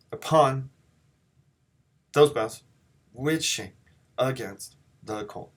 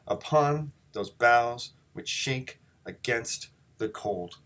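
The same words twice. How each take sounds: First: Halting "Upon those boughs which shake against the cold", first syllable of each foot punched; reversed stress. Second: Slow "Upon those boughs which shake against the cold", broken into feet, each second syllable stressed; iambic scansion. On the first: Teacher showing class the opposite way, unnatural heavy-then-light stresses with gaps. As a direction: hit "Up", "those", "which", "a", "the" hard, pausing between feet. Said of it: "did them in the opposite way".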